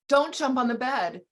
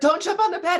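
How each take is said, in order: First: It is said at normal volume. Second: It is said more loudly.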